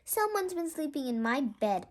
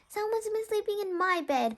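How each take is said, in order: First: It is roared in Papa Bear's voice. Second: It is wailed in Mama Bear's voice.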